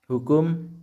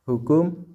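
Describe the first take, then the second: Both takes have the same delivery.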